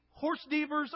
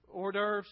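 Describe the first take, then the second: First: "horse devers" read as it is spelled; joking mispronunciation. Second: Said in the usual way. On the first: Acted. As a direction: say "horse devers" like English words, horse plus DEE-vers. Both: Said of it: "that doesn't make any sense how that's spelled".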